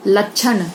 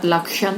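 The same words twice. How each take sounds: First: लक्षण said as lachhan with chh; लक्षण mispronounced lachhan; wrong ch sound. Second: लक्षण said with a clear ksh; लक्षण said correctly as lakshan; correct ksh sound. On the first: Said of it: "गलत, लक्षण सही". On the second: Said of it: "लक्षण सही". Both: Shown as a demonstration.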